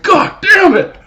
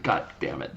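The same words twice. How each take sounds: First: Sudden high, loud yell of "God damn it!"; explosive cry of pain and anger; pained shout. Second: Breathy, much softer "God damn it."; hushed dismayed curse; whispered curse. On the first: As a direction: bellow it as the punch lands. Retold reaction to being punched. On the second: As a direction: mutter it under your breath as it dawns on him. Quietly realizing his mistake. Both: Retold or imitated.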